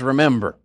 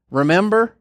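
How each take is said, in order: First: Said in the usual way. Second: "Remember" lifted high and stressed; high emphatic remember. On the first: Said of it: "there's a reason God says". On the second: Shown as a demonstration. Preacher stressing the scripture to the church, "Remember" high and punched. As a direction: lean hard on "Remember", pitched up. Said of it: "When it tells me".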